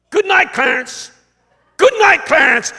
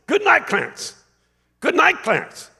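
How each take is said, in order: First: High, loud farewell shout; yell. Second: High-pitched call, less forceful than a yell; smiling farewell. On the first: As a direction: yell it down into the casket, louder the second time. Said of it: "he yelled at the corpse". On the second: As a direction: call goodnight through a big smile. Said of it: "he had this big smile on his face". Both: Retold or imitated.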